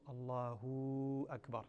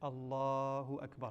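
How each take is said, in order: First: The final hu of Allahu is drawn out. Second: Neither the first vowel nor hu is drawn out. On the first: The speaker calls it wrong. "do not lengthen the hu" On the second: The speaker calls it right. "the way to say it correctly"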